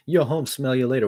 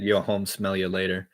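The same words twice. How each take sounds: First: Louder, higher punch; punchy line. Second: Slow, paused rap line; paused delivery. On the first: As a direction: hit it with energy. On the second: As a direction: take a breath before it. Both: Shown as a demonstration. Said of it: "what if I kinda paused".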